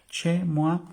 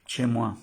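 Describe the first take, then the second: First: "chez moi" much higher and louder, rising; high emphatic. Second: "Chez moi" with ch and "mwa", stressed on "Chez"; French demo. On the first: ("chez moi" agudo y enfático) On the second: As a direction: model "Chez moi" cleanly. ("chez moi" pronunciado claro) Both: Shown as a demonstration.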